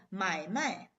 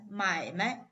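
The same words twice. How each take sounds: First: 买卖 with a full falling tone on 卖; original full tone. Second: 买卖 with 卖 short, light and toneless; neutral tone. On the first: Teacher showing buy and sell, 买卖 in full tones. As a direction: give both syllables of 买卖 their full tones. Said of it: "read it in the original tone". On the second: Teacher showing the word for business, 买卖 with neutral tone. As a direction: leave the second syllable of 买卖 unstressed. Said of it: "if you read it as 买卖". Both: Shown as a demonstration.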